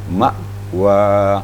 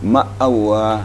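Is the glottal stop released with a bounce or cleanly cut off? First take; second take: clean; bounce. First: The glottal stop is cut off cleanly without bounce. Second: The glottal stop is released with an echoing bounce. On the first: The speaker calls it right. "betul-betul hilang uh, hamzahnya" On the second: The speaker calls it wrong. "Jangan sampai seperti ini"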